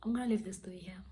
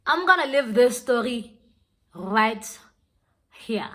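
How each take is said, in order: First: Soft, quick, near-whispered sign-off; hushed sign-off. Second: Loud, deliberate sign-off with pauses; emphatic announcement. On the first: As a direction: slip it out quickly under the breath. First, quiet take of sign-off. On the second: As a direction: announce it firmly, setting RIGHT and HERE apart. Repeats sign-off, now emphatically. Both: Real, not acted.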